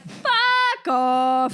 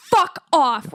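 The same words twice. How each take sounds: First: Light joking Canadian "fuck off"; a Canadian teasing a friend. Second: Harder, louder American "fuck off"; mean "fuck off" the American way; an American telling someone off. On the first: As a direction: joke it out like a Canadian. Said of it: "We're like". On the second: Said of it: "Americans are like". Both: Retold or imitated.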